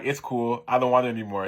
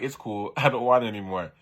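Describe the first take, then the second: First: Said in the usual way. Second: Can't keep a straight face on the line; giggling while quoting the boy; laughing through it. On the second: Retold or imitated. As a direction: reread with a laugh breaking in.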